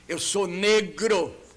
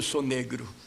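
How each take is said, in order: First: The stress in negro is on the last syllable. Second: The stress in negro is on the first syllable. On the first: "Ele acentuava o gro" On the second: "Ele nunca dizia eu sou negro"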